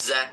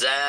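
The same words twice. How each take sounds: First: The vowel is short and clipped. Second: The vowel is drawn out long. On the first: It is the letter with its vowel mark. "হারকাতের উচ্চারণে কোনো টান নেই" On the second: It is the letter's name. "নামের উচ্চারণে এক আলিফ টান আছে"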